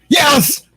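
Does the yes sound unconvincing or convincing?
convincing. It sounds emphatic and convincing.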